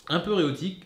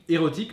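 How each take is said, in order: First: «érotique» dit «éoti», sans le r et la fin avalée; lâche «un peu érotique» en écorchant le mot en «éoti»; érotique écorché. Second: «érotique» bien articulé, avec le r et le k final; érotique corrigé. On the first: (il trébuche sur «érotique» en présentant le film, prononcé «éoti») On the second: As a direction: reprend «érotique» clairement pour se corriger. (il se corrige devant ses abonnés, «érotique» bien net) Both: Real, not acted. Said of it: "érotique, pardon".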